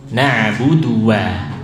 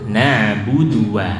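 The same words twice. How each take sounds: The two takes are said the same way.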